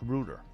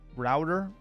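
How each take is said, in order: First: It is said in a British accent. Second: It is said in an American accent. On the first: "British router" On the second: "American router"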